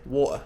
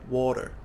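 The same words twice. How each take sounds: First: The middle T is dropped entirely. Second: The middle T is clearly pronounced. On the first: "very casually, British people might drop the T altogether" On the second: "British people pronounce the T"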